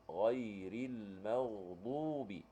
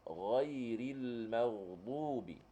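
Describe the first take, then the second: Both takes have the same delivery.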